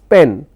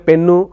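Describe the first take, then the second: First: The word ends cleanly on the n consonant. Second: The word ends with an added oo vowel. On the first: The speaker calls it right. "it's pen" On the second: The speaker calls it wrong. "it's not pennu"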